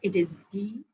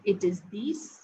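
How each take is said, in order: First: The word ends without any final consonant. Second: The word ends with a clear s sound. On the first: The next word begins with a consonant. "If followed by a word which begins with a consonant" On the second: The number stands alone. "By itself"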